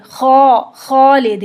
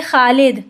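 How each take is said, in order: First: खालिद with a full rounded खौ, slow; heavy Arabic kha. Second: Said in the usual way. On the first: Shown as a demonstration. Teacher contrasting Urdu and Arabic kha, heavy and slow. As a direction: thicken the खौ of खालिद, drawn out. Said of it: "अरबी में क्या होगा". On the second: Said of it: "हम उर्दू में क्या बोलते हैं".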